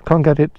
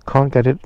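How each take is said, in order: Both takes have the same delivery.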